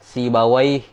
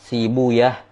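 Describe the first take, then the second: First: The name ends with an 'awaih' sound. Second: The name ends with an 'uyah' sound. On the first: This is the hadith scholars' reading. The speaker calls it wrong. "Kalau ahli hadis membaca" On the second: This is the language scholars' reading. The speaker calls it right. "ulama lugo nahu itu membaca dengan sibuyah"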